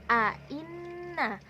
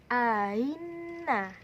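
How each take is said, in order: Both takes have the same delivery.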